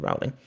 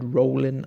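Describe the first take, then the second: First: The first syllable does not rhyme with bowling. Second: The first syllable rhymes with bowling. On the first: The speaker calls it wrong. "I know it's not correct, but pronounce it Rowling" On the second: The speaker calls it right. "meant to be pronounced as in rhyming with bowling, but with an R sound at the start"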